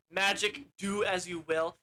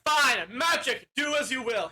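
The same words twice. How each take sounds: First: Said in the usual way. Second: Faked incantation. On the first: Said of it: "So at this point, he'll try". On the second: Wizard faking magic for the outlaws, hammed-up. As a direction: proclaim a spell with put-on grandeur. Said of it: "He's, like, faking it".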